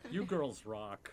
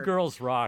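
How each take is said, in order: First: It is said at normal, softer volume. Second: It is said louder.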